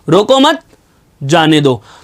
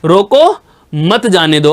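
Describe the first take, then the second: First: The pause comes after the word 'mat'. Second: The pause comes after the word 'roko'. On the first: Let the person go. "रोको मत को एक साथ बोला, फिर जाने दो को एक साथ बोला, बीच में मैंने आराम लिया" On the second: Stop the person from going. "अर्थात इसको रोक लीजिए, जाने मत दीजिए"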